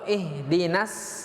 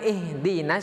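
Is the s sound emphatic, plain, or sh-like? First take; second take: plain; sh-like. First: The s is a plain light s. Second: The s is pronounced like sh. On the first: "itu huruf huruf sin" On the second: "maka hurufnya adalah huruf shin"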